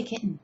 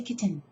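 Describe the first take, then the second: First: "kitten" as KIT'-n, T held back; speaker's own pronunciation. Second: "kitten" as KIT-ten, T sounded; disowned pronunciation. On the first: Teacher telling how they say it, soft T-less "kitten". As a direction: softly say "kitten" with a swallowed T. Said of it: "I say kitten". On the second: Teacher telling what they don't say, soft "kitten" with a sounded T. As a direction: softly release the T in "kitten". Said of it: "I don't say kitten". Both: Shown as a demonstration.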